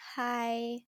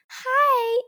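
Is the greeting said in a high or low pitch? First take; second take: low; high. First: It is said in a calmer, lower-pitched voice. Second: It is said in a happy, high-pitched voice. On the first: The speaker calls it right. "You can be like" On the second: The speaker calls it wrong. "you don't have to sound so happy and high-pitched"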